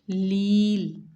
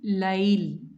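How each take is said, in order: First: The vowel is a long 'ee' sound. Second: The vowel is an 'ay' diphthong. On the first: "but pronunciation is a change" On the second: "It's ya silent has fatha before it"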